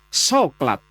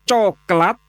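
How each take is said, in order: First: The word starts with an 's' sound. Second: The word starts with a 'ch' sound. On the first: "ada yang menyebut soklat" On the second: "ada yang menyebut coklat"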